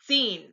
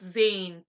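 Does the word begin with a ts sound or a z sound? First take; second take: ts sound; z sound. First: The word begins with a ts sound. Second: The word begins with a plain z sound. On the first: The speaker calls it right. "but zehn" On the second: The speaker calls it wrong. "not zane"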